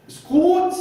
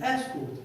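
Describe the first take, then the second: First: "escort" as es-KORT, high and loud; second-syllable stress. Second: "escort" as ES-kort, said evenly; first-syllable stress. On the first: Speaker showing listeners his mistake, "escort" stressed as es-KORT. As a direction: punch the end of "escort", swallowing the first vowel. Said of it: "which I pronounced". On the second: Speaker showing listeners the correct form, "escort" stressed as ES-kort. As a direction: give "escort" its full first vowel and the stress. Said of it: "instead of stressing on the first syllable". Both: Shown as a demonstration.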